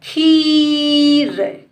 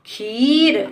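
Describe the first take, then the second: First: खीर with long level खी, then light र; soft last letter. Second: खीर joined, ending on a light र; blended word. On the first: Teacher shows pupils the light last letter, stretched. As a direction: sound out खीर slowly in two parts. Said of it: "इसको हम धीरे से बोलेंगे". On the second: Teacher puts the word together for pupils, blended. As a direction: say खीर as one shorter word. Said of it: "आखिरी वाले अक्षर को धीरे से बोलेंगे". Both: Shown as a demonstration.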